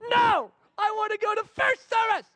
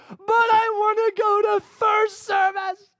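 First: Put-on high, loud, shouted child voice; whiny child shout. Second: Put-on high, loud, slow whiny child voice; crying child. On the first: Daughter to dad refusing again, high whiny shout. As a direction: yell it like a stubborn nine-year-old. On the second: Daughter to dad after tears start, high whiny wail. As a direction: wail it like a teary nine-year-old. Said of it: "tears start rolling".

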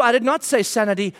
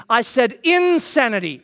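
First: Said in the usual way. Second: "insanity" with its first syllable, in, stretched and punched; stress on IN of insanity. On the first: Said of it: "I said insanity. It's a different word". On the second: Retold or imitated. Dad correcting his son on the word, stressing IN in "insanity". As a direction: lean hard on the "in" of "insanity". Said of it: "It's a different word".

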